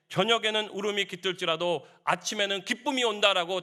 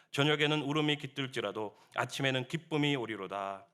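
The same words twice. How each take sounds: First: Raised, loud preaching voice; emphatic repetition. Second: Said in the usual way. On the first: Real, not acted. Preacher repeats David's confession to congregation, emphatic proclamation. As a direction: proclaim the verse higher and louder.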